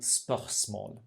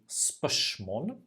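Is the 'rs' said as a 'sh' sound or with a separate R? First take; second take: separate R; sh sound. First: A guttural R is heard before the s. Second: The 'rs' merges into a 'sh' sound. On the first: The speaker is from western Norway. "À l'ouest, on dit" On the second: The speaker is from eastern Norway. "à l'est de la Norvège, on dit"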